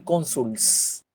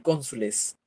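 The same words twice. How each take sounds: First: "cónsuls" with L running straight into S; wrong plural. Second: "cónsules" with an E before the final S; correct plural. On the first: Teacher showing a plural that sounds bad, "cónsuls" with clashing -ls ending. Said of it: "No suena, es cacofonía". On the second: Teacher giving students the proper plural, "cónsules" ending in a full -les. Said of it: "Voy a decir cónsules". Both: Shown as a demonstration.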